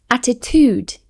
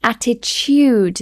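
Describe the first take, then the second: First: ATTITUDE as atti-tood, no Y; American pronunciation. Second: ATTITUDE with a Y between T and U; British Y sound. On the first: Teacher imitating Americans, ATTITUDE without the Y. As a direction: say attitude with a plain oo. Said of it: "exactly as it's spelled". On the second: Teacher demonstrating the added Y in ATTITUDE. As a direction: stretch attitude as atti-tyood. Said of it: "like a Y sound in between". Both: Shown as a demonstration.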